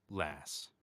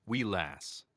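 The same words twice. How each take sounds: First: Said with an American accent. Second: Short Scottish-accented phrase. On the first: Showing fans how the word sounds in American, American accent. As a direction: give it an American pronunciation. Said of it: "say it in an American accent". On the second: Showing fans a very Scottish word, Scottish accent. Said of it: "that's a very Scottish word". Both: Shown as a demonstration.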